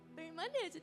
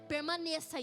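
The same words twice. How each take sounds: First: It is said in a sweet, coaxing tone. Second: It is said as a firm command.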